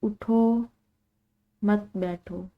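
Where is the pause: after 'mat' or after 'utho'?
after utho. There is a pause right after 'utho'. The command is to get up, not sit. The speaker calls it right. "इस तरह मायने बिल्कुल दुरुस्त है"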